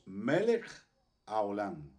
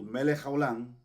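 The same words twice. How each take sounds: First: The two words are kept softly apart. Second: The two words are run together. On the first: It means King of the universe. The speaker calls it right. "Muy suave esa pronunciación" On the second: It expresses a curse. The speaker calls it wrong. "si nosotros pegamos eh, Melech con Olam"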